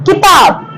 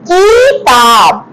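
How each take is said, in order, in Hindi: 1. पहला स्वर छोटा और जल्दी वाला है। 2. पहला स्वर खींचकर लंबा बोला गया है। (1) "हमने इसे जल्दी बोला, झटके से बोला" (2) "किताब हम नहीं बोलते, तो ये रॉन्ग है"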